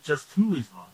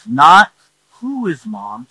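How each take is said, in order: First: Said in the usual way. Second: Not said slow and loud, with the weight on Not; stress on not. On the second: Shown as a demonstration. Preacher contrasts baby's questions, Not stressed slow and loud. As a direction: lean hard on Not, slowly. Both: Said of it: "That's the primary question".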